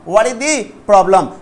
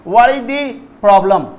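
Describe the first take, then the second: No difference in how they are said.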